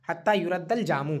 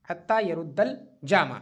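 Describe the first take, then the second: First: یرد read as passive "yu-radd", with "u" first and "a" second; passive reading yuradd. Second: یرد read as active "ya-ruddu", with a clear "a" in the first syllable; active reading yaruddu. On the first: Teacher offers the alternative passive reading to students: yuraddu. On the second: Teacher reads the phrase the active way for students: yaruddu, slow and deliberate. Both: Shown as a demonstration. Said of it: "مجہول بھی پڑھ سکتے ہیں اس کو".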